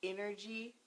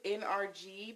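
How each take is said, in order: First: It is said quickly, running together as one word. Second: It is said slowly as three separate letters. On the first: "if you say it fast" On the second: "You see it says N R G"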